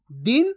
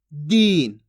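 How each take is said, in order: First: दिन with brief i, pitch lifting; short vowel. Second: दीन loud, long ee, falling pitch; stretched long vowel. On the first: Teacher contrasting two words, दिन kept short. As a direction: say दिन quick and unstretched. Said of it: "कम खींच के पढ़ा जा रहा है". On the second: Teacher contrasting two words, दीन stretched long. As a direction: draw दीन out. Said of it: "ये फर्क आपको अच्छे से समझ लेना". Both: Shown as a demonstration.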